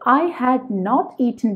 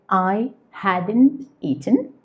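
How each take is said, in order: First: Had not is said as two full words. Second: Had not is shortened to hadn't.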